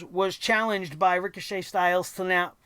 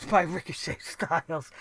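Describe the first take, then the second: First: Said in the usual way. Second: Softer, chuckling correction; amused, quiet self-correction; laughing at own slip. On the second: Real, not acted. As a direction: laugh off the name mix-up. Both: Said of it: "You see how fucked up they got me tonight?".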